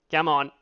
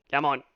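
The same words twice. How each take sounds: The two takes are said the same way.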